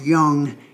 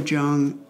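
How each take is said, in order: First: The name begins with a Y sound. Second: The name begins with a J sound. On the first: The speaker calls it right. "it's Young" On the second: The speaker calls it wrong. "it was spelled with a J, so it's been hard for me to get that out of my head"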